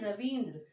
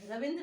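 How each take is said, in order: First: The second syllable has a long ee vowel. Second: The second syllable has a short i vowel. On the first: The speaker calls it right. "हमें क्या उच्चारित करना चाहिए, रविंद्र" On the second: The speaker calls it wrong. "हमारा उच्चारण क्या है वो गलत है, रविंद्र नहीं"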